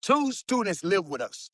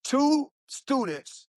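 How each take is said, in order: First: Said in the usual way. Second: "Two students" slow, higher, each word weighted; slow emphatic repeat. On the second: Shown as a demonstration. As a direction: drag out "Two students" to make it land.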